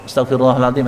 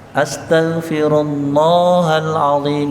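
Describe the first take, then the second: First: The vowel in Allah is cut short. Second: The vowel in Allah is held long. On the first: The speaker calls it wrong. "Kayak lafal Allahnya tidak panjang" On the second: The speaker calls it right. "lafal Allahnya itu agak panjang"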